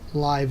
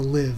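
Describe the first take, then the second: First: The vowel is long, rhyming with five. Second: The vowel is short, rhyming with give. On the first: The speaker calls it wrong. "not li- live as in alive" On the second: The speaker calls it right. "live as in to live"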